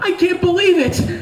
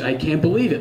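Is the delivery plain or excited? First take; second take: excited; plain. First: It is said in a happy, excited way. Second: It is said in a plain, flat way.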